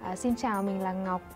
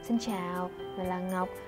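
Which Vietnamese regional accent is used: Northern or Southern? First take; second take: Northern; Southern. First: It is spoken with a Northern Vietnamese accent. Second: It is spoken with a Southern Vietnamese accent. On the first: "một câu giọng miền Bắc" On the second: "một câu giọng miền Nam"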